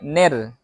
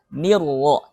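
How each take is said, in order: First: The vowel is an e sound. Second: The vowel is a clear i sound. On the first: The speaker calls it wrong. "jangan sampai ner" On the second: The speaker calls it right. "nirwo, jangan sampai ner"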